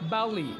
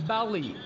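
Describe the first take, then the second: The two takes are said the same way.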